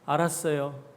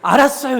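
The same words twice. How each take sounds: First: It is said gently in a low, soft tone. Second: It is said sharply in a high, curt tone. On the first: The listener accepts the call to make peace. The speaker calls it right. "이렇게 좀 부드럽게 하면 될 텐데" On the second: The listener is still annoyed. The speaker calls it wrong. "이러지 말고요"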